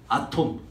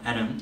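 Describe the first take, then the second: First: It is said with Korean-style syllables, 'a-tom'. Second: It is said with American English vowels and T. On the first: The speaker calls it wrong. "여러분 발음으로 뭐예요? 아톰. 존나 촌스러워" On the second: The speaker calls it right. "원래 영어 발음 뭔지 아요 여러분? atom이라고 말해요"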